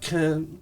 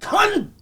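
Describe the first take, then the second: First: It is said weakly and hesitantly, like Americans. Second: It is said forcefully, hitting the final consonants.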